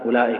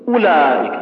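First: The first vowel is stretched out long. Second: The first vowel is a full but short u. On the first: The speaker calls it wrong. "ما تقول أولئك أولئك" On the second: The speaker calls it right. "تقول أولئك"

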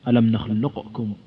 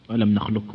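First: The q sound is pronounced clearly before the k. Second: The q sound merges completely into the k. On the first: "بالإظهار" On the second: "المختار هو الإدغام الكامل"

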